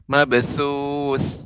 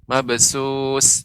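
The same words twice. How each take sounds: First: The consonant is a soft 'th' sound. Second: The consonant is a hissing 's' sound. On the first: The speaker calls it right. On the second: The speaker calls it wrong. "dia tidak jadi huruf sin"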